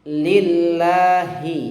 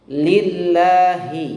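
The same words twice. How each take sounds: The two takes are said the same way.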